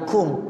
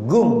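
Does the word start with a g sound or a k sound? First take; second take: k sound; g sound. First: The word starts with a k-like q sound. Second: The word starts with a hard g sound. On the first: "bukan kum" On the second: "Jadi dialeknya begitu"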